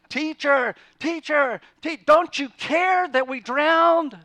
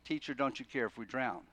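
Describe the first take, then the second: First: The question is spoken in a frantic, urgent voice. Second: The question is spoken in a calm, even voice. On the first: The speaker calls it right. "they grab him, and they're shaking him, and they're saying" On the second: The speaker calls it wrong. "They didn't say it that way"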